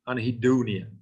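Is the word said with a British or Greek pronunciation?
British. The word is said with a British pronunciation. "But British pronunciation is anhedonia"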